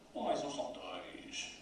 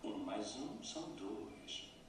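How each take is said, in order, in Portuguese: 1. O dois recebe uma ênfase pesada e desdenhosa. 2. O dois é prolongado e cai na segunda metade. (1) "Se ainda dermos ênfase à palavra dois de outra forma ... e ainda por cima és imbecil" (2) "O dois é prolongado como se tivesse duas sílabas. Dois. E a segunda sílaba desce. ... A melodia da desculpa"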